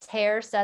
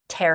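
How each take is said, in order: First: The middle consonant is a soft s sound. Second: The middle consonant is a hard k sound. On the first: The speaker calls it right. "That makes it like a soft C sound" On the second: The speaker calls it wrong. "Without it, ... it'd be terca"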